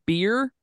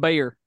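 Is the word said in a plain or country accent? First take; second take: plain; country. First: It is said in a plain accent. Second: It is said in a country accent.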